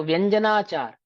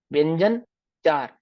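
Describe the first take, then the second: First: व्यंजनाचार as one unbroken word; correctly joined word. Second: व्यंजन चार split by a clear pause; misread as two words. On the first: Teacher showing students the proper reading, व्यंजनाचार joined as one. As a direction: run व्यंजना into चार with no gap. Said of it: "तो व्यंजनाचार ऐसा". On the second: Teacher showing students a wrong reading, व्यंजन चार split in two. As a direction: read व्यंजन, stop, then चार separately. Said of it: "ऐसा पढ़ूं". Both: Shown as a demonstration.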